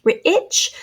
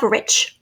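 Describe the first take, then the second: First: Rich stretched on the short I, pitched higher; short I stressed. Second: Said in the usual way. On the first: Shown as a demonstration. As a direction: sound out rich as r-ih-ch. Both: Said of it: "short I sound".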